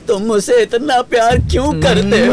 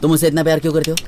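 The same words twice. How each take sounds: First: It is said with deep, heartfelt emotion. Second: It is said with little emotional depth.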